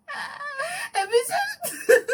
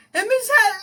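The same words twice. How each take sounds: First: Very high greeting, breaking into laughter; helpless laughing imitation. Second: High, loud greeting through laughter; laughing imitation. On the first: Caller retrying her greeting to Michelle, helplessly giggly and high. Second try at retelling, laughing. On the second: Caller greeting Michelle on the phone, high and laughing. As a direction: act out the call, cracking up.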